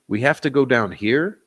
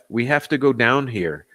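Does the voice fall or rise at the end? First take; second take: rise; fall. First: It is said as a question, rising. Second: It is said as a statement, falling.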